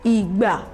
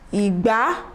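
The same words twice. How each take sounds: First: The pitch stays low on both syllables. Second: The pitch goes from low to high.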